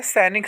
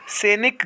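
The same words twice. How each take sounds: First: सैनिक as "sai-nik", open ai; correct open vowel. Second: सैनिक as "seh-nik", close e; wrong close vowel. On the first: Teacher giving students the right form, open vowel. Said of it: "सही होता है". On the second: Teacher showing students the mistake, close vowel. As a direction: say सैनिक with a plain e. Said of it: "गलत होता है". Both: Shown as a demonstration.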